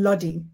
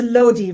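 First: The first syllable does not sound like 'low'. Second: The first syllable sounds like 'low'. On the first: The speaker calls it wrong. "rather than" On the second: The speaker calls it right. "it's a Lodhi rather than Lodhi. Low"

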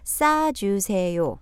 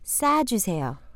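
First: It is said slowly. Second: It is said at normal speed.

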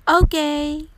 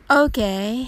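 First: It is said in an enthusiastic, positive way. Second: It is said in a lukewarm, unenthusiastic way. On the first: It is perfect. "ポジティブな意味でバッチリですという気持ちを込めて" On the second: It is only so-so, not great. "これは、彼は素晴らしいという意味ではなく、彼はまあまあよという意味になります"

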